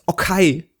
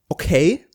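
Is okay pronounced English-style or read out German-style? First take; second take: German-style; English-style. First: It is pronounced as German spelling reads. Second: It is pronounced the usual English way.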